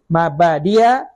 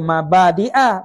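First: A y sound comes before the last vowel. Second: A glottal stop comes before the last vowel. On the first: "baca dengan ya" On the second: "baca dengan tahqiq hamzah"

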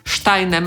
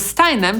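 First: The name is pronounced in the German way. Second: The name is pronounced in the English way. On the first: "znanym po polsku Steinem" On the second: "a po angielsku Steinem"

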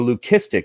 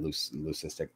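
First: The middle consonant is a hard k sound. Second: The middle consonant is a soft s sound. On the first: This is the technically correct way to say it. The speaker calls it right. "if you want to say it right" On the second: This is the common everyday way people say it. The speaker calls it wrong. "even though technically that's not the right way to say it"

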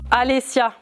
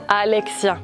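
First: The middle consonant is pronounced as s. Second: The middle consonant is pronounced as ks. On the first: The speaker calls it wrong. "Ton nom c'est avec un X, j'avais mal lu" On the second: The speaker calls it right.

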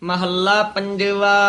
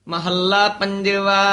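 The two takes are said the same way.

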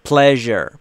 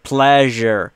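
The two takes are said the same way.

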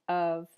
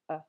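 First: The word has a full, clear vowel. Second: The word has a weak schwa vowel.

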